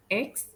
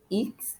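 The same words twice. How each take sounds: First: Said in the usual way. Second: X said in French, "eeks"; French letter name. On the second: Shown as a demonstration. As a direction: say X as French "iks". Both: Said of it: "same pronunciation as in English".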